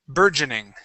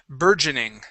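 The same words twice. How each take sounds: No difference in how they are said.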